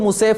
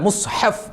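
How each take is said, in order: First: It is said as 'musef' without a middle h. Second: It is said as 'mushaf' with a middle h. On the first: The speaker calls it wrong. "മുസേഫ് മുസേഫ് എന്നല്ല" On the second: The speaker calls it right. "മുസ്ഹഫ് എന്നാ പറയാ"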